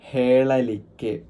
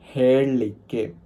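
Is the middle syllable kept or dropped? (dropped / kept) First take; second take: kept; dropped. First: The middle syllable is fully pronounced. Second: The middle syllable is dropped, shortening the word. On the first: This is the standard form. "ഹേളലിക്ക് എന്നാണ് പറയുക" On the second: This is the local, informal form. "ലോക്കലായിട്ട് ഇൻഫോർമലായിട്ട് പറയുമ്പോൾ ഹേളിക്ക് എന്ന് പറയും"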